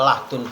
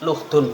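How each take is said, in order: First: The first vowel is an 'a' sound. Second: The first vowel is a 'u' sound. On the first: "dibaca fathah lamnya" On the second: "wadom muha"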